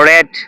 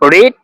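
First: The vowel is a short e sound. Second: The vowel is a long ee sound. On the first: It is the past form. "But প্রনাউন্সিয়েশনের বেলায় কিছুটা পার্থক্য হবে" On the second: It is the present form. "যেমন রিড"

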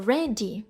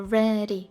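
First: The middle consonant is a full, hard D. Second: The middle consonant is a quick, light flap. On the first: The speaker calls it wrong. "не ready" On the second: The speaker calls it right. "а ready"

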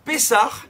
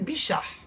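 First: It begins with p and has an s sound. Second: It begins with b and has an sh sound. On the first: "Pour « pessar »" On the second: "c'est devenu « bichar »... il n'y avait pas ni le son « ce », ni le son « peu »"

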